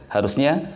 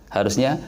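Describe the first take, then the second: No difference in how they are said.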